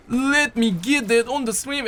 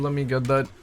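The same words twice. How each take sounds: First: Higher, slow goofy announcer voice; playful mock streamer voice; silly put-on voice. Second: Said in the usual way. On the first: Repeats line in put-on voice.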